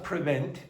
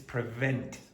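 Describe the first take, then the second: First: It is said with a b sound instead of v. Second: It is said with a clear v sound. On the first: The speaker calls it wrong. "it's not prevent" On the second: The speaker calls it right. "it's prevent. V"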